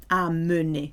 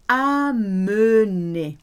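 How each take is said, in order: First: Said in the usual way. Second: Amener drawn out very slowly and louder. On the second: Shown as a demonstration. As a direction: model amener slowly for repetition.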